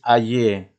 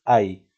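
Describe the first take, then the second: First: "aye" alargado, con la y como consonante y una e final; y consonántica. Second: "ay" with the y said as a vowel i; y vocálica. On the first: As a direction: pronounce "aye" in two syllables, a-ye. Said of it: "Tú no dices aye". ("aye" con y de consonante, a-ye) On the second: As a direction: glide "ay" into one syllable, like a-i. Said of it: "Lo pronuncias como una I". ("ay" con la y como una i) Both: Shown as a demonstration.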